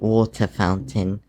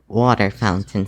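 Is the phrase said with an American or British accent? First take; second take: British; American. First: It is said with a British accent. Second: It is said with an American accent. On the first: "so we say" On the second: "You Americans say that it's"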